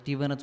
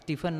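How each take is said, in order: First: The middle consonant is a v sound. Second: The middle consonant is an f sound. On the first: The speaker calls it right. "स्टीव्हनच म्हणतात" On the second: The speaker calls it wrong. "स्टीफन नाही म्हणत त्याला"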